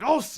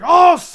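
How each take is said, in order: First: It is said quietly. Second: It is said loudly.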